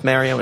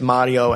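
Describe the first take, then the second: First: The name is said with an American accent. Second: The name is said with an Italian accent. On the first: "But we know it's Mario" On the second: "He's got an accent, so he's going to pronounce it Mario"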